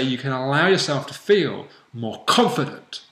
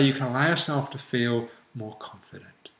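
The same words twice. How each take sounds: First: The voice sounds strong and confident. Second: The voice sounds flat and unconfident. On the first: The delivery matches the confident state. The speaker calls it right. "match the word and the state to how you're saying it" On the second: The delivery does not match the confident state. The speaker calls it wrong. "you wouldn't say"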